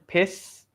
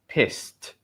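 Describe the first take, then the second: First: The word ends on an S sound, no T. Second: The word ends with a clear T sound. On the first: The speaker calls it wrong. "it ends in an S sound" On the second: The speaker calls it right. "we have to have the T sound"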